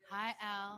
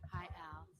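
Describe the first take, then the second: First: It is said loudly. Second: It is said quietly.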